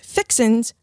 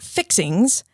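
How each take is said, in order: First: The word ends with a plain 'n' sound. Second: The word ends with an 'ng' sound. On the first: The speaker calls it right. "that's fixins" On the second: The speaker calls it wrong. "not fixings"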